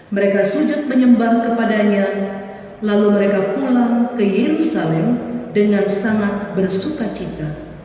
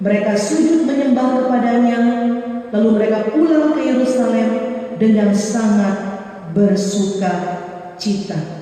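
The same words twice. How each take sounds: No difference in how they are said.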